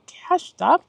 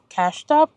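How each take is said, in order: First: Said in the usual way. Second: Cashed up asked back with a rising question; catching her own slip, amused disbelief; incredulous. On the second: Real, not acted. Repeating her own slip back to herself, incredulous.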